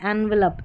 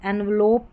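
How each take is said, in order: First: The last syllable has a short, reduced vowel. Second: The last syllable has a full 'o' vowel. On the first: The speaker calls it right. "इसको आप एनवलप pronounce करें" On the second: The speaker calls it wrong. "एनवलोप ना पढ़ें, ये उच्चारण सही नहीं है"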